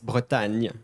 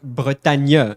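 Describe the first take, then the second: First: It ends without a separate 'nye' syllable. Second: It ends with a separate 'nye' syllable. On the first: The speaker calls it right. "you say Bretagne" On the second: The speaker calls it wrong. "You don't say nye at the end"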